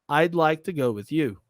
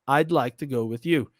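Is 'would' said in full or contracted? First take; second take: contracted; contracted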